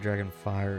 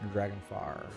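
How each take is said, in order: First: It is said in the usual, standard pronunciation. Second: It is said in the speaker's local pronunciation. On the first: "Instead of" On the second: "the way that people would pronounce it where I'm from"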